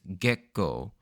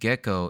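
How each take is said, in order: First: The word has a sharp pause in the middle. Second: The word flows smoothly without a break inside. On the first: This is the Japanese pronunciation of the name. "a sort of a harsh pause in the middle" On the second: This is the English pronunciation of the lizard's name. "Instead of gecko"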